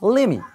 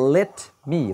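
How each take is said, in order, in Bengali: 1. শব্দ দুটো জুড়ে গিয়ে lemme হয়ে যায়। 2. দুটো শব্দই আলাদাভাবে, পুরোপুরি বলা হয়।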